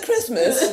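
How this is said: It is said with a British accent.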